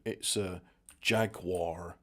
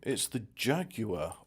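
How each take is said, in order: First: It is said in an American accent. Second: It is said in the speaker's own non-American accent.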